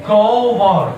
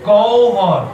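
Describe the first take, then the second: No difference in how they are said.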